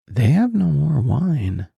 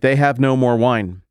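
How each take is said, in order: First: It sounds like a humble, gentle remark. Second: It sounds like a demanding announcement.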